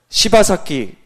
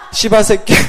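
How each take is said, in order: First: The ending is said as a plain 'saki'. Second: The ending is said as a tense 'saekki'.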